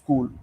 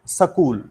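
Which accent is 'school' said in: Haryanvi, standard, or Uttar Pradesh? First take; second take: standard; Haryanvi. First: It is said with a standard English pronunciation. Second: It is said with a Haryanvi regional accent. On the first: "the actual pronunciation is" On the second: "Haryana वाले बोलते हैं"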